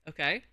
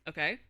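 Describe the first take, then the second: No difference in how they are said.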